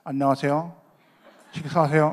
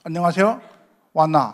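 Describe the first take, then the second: First: Talking with a pen between the teeth. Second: Gyeongsang dialect slipping back through; a hint of Busan Gyeongsang dialect. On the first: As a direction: say it around a pen in the mouth. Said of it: "그래서 저도 했죠, 이렇게". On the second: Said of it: "요게 각인이라". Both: Shown as a demonstration.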